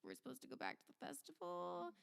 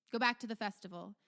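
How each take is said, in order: First: Small, high, hushed question; soft, raised, incredulous murmur; bewildered crowd. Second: Louder, brisk ducal order; quick, firm command; commanding Duke. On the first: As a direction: voice the puzzled onlookers very softly. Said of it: "staring at him like". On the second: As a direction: dismiss the crowd with authority. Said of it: "the Duke, uh, regards everyone". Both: Acted.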